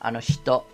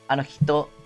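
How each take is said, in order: First: It has an sh sound, Tokyo-style speech. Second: It has a plain h sound, standard Japanese.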